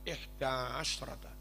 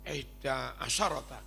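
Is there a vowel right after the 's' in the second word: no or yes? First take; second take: no; yes. First: No vowel follows the 's' sound. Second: A vowel follows the 's' sound. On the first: The speaker calls it right. "as, bukan asyarah" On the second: The speaker calls it wrong. "Ojo dibaca"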